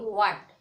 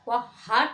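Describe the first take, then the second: First: No h sound is pronounced after the w. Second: An h sound is pronounced after the w. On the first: The speaker calls it right. "हा का उच्चारण नहीं करना है" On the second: The speaker calls it wrong. "वह हाट नहीं"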